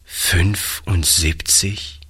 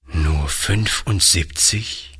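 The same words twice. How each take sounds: First: Sad. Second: Slow, disbelieving "fünfundsiebzig" with a rising question; sad. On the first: Old grandfather, stunned, echoing the lady's number. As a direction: repeat it to himself in sorrow. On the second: Old grandfather sadly repeating the number of beds. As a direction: let the number sink in, hurt. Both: A narrator's reading. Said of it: "wiederholte der Alte traurig".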